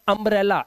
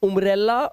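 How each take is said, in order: First: The first vowel sounds like 'uh'. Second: The first vowel sounds like 'oo'. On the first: The speaker calls it right. "यू का उच्चारण है ना वो आ हो गया" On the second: The speaker calls it wrong. "पढ़ सकते हैं, बट यहां पर इसे ना आ से पढ़ते हैं"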